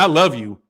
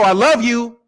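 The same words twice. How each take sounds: First: It is said in a dismissive, contemptuous way. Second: It is said lightly and offhandedly. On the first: The speaker does not care about the listener. "That means fuck you" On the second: The speaker is not being serious. "That ain't serious"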